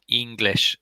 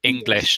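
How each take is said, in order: First: The first vowel is long. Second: The first vowel is short. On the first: The speaker calls it wrong. "you gave a longer E sound" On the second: The speaker calls it right. "It's a short one"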